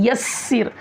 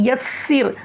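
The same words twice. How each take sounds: No difference in how they are said.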